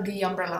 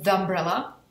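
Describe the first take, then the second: First: The word 'the' has a long 'ee' vowel. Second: The word 'the' has a short 'uh' vowel. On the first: The speaker calls it right. "tak řeknu the umbrella, aby to trošku oddělili" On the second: The speaker calls it wrong. "Aby to nebyl the umbrella"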